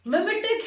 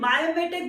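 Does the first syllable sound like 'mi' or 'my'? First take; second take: mi; my. First: The first syllable has a short 'mi' sound. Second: The first syllable has a long 'my' sound. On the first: "मिमेटिक है word" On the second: "कुछ जगह पे से मायोमेटिक भी पढ़ा जाता है"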